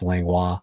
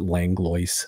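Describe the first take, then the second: First: The name is said the French way. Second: The name is said in an anglicized way. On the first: The speaker calls it right. "most normal people would pronounce Langlois" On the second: The speaker calls it wrong. "not Tom Grandin pronounce it Langlois"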